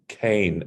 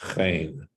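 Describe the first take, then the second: First: It starts with a hard k sound. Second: It starts with a breathy kh sound. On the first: The letter takes a dagesh. The speaker calls it right. "This should be Cain" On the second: The letter has no dagesh. The speaker calls it wrong. "and not Chain"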